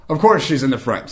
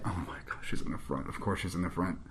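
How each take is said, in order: First: Said in the usual way. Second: Very soft, low, under the breath; muttered dismay. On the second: Retold or imitated. Latecomer learns her seat is up front, muttered dismay. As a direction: groan it quietly to yourself.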